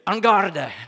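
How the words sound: It is said forcefully, with a French flair. "Like you're French and you mean it"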